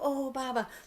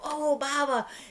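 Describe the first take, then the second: First: It sounds sad and sorrowful. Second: It sounds happy and delighted.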